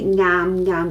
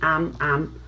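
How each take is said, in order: First: Each syllable starts with an ng sound. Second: Each syllable starts directly with a vowel. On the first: "with the ng" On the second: "some natives also only say am am"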